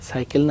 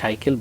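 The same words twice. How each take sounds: First: The word has the standard Bangla pronunciation. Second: The word has a regional dialect pronunciation. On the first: This is the expected way to say it. "না বলে" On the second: This is how it is said locally. "Local ভাষায় বলে"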